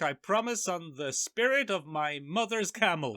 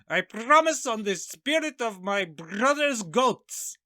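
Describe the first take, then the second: First: It is said in his natural voice. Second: It is said in a put-on character voice.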